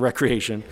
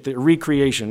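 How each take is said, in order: First: The word starts with 'wreck', as in leisure. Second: The word starts with 'ree', as in re-create. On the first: Leisure or play. The speaker calls it wrong. "not recreation" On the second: Creating something again. The speaker calls it right. "Ruin and recreation theory"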